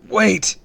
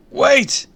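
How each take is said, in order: First: High, loud short call; urgent cry, short of a full scream; choked-out cry. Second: Very high, loud yell; screamed. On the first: Boy calls after the purple blur, choked-out cry. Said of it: "I choked out". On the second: Boy at roof's edge screams for the supervillain, loud. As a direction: scream after someone getting away. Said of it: "I screamed, a little louder this time". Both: A narrator's reading.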